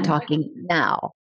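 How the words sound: The voice is tense and comes from the throat.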